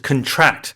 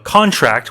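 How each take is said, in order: First: The stress is on the second syllable. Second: The stress is on the first syllable. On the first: It means to catch a disease. "the stress is on the second syllable as a verb" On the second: It means a signed agreement. "as opposed to a contract"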